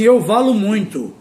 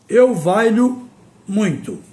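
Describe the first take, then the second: First: The verb has a plain l sound. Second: The verb has a palatal lh sound. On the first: The speaker calls it wrong. "Tem gente que diz assim" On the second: The speaker calls it right. "A forma correta de pronunciar o verbo valer"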